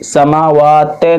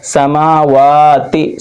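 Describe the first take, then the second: First: समावाते ending in te instead of ti; समावाते, last vowel opened to e; wrong e ending. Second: समावाती with long aa's and a quick final i; समावाती slowly chanted, ending in i; clear short i ending. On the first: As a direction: mistaken reading with a final e vowel. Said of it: "समावाते नहीं पढ़ना है". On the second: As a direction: draw out मा and वा, end on a true ti. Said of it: "मारूफ पढ़ना है". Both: Shown as a demonstration.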